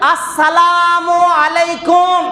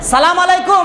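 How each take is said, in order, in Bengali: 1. শুভেচ্ছাটি 'salamu'-র আগে 'as' দিয়ে শুরু হয়। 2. শুভেচ্ছাটি সরাসরি 'salam' দিয়ে শুরু হয়, আগে কোনো 'as' নেই। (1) "আপনার ওপরে আল্লাহর রহমত বর্ষণ" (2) "শব্দগুলো স্পষ্ট উচ্চারণ না করলে মানেটা একদম উল্টো পাল্টা হয়ে যাবে"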